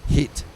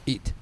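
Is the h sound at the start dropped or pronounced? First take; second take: pronounced; dropped. First: The word begins with a clear h sound. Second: The word begins without any h sound. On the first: The speaker calls it right. "remember, it's hit" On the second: The speaker calls it wrong. "not eat"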